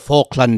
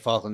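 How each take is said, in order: First: The word is said with exaggerated, careful enunciation. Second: The word is said plainly and casually. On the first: "they'd be like the Falkland Islands" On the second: "they wouldn't just say Falkland"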